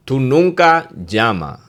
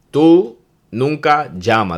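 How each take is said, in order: First: Slow demo phrase. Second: Mock accusing partner. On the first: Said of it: "There's another good one". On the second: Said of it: "That means call". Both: Shown as a demonstration.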